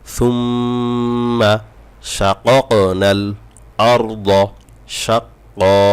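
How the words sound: The words are separated by short pauses.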